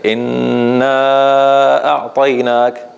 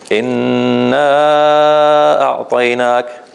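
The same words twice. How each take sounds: First: The long vowel is held for four counts. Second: The long vowel is held for five counts. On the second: "or five"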